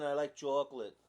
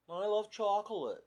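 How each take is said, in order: First: Put-on light Long Island accent, "chocolate" as "chawk-lit"; mock Long Island local. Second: Said in the usual way. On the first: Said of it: "I could say it like they say, like, in Long Island". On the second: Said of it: "I could say it like they say".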